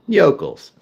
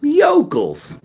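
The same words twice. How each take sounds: First: Said in the usual way. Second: Yokels said high and drawn out with a falling end; a high, mocking yokels; yokels, high pitched and mocking. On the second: Shown as a demonstration. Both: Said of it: "Let's call them that".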